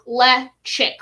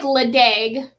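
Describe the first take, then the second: First: The middle consonant is a ch sound. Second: The middle consonant is a plain d sound. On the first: The speaker calls it right. "it's like Lechick, like a chick" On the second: The speaker calls it wrong. "It looks like Ledag, but"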